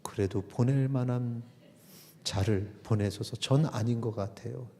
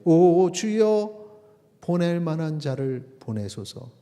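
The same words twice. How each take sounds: First: Reluctant Moses. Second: Drawn-out, raised cry to the Lord, then easing; pleading Moses. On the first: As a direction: lightly voice Moses backing out. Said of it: "끄떡끄떡하더니". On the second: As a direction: draw out the plea like Moses. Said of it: "모세가 이르되". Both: Acted.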